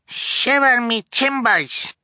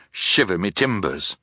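First: High, drawn-out little pirate cry; amazed cry. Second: Said in the usual way. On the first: A narrator's reading. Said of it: "Sonny cried".

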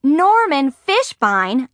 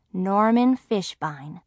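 First: High, loud, drawn-out disbelieving yell. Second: Said in the usual way. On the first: A narrator's reading. Margaret discovers who sent the invitation, incredulous yell. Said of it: "I yelled".

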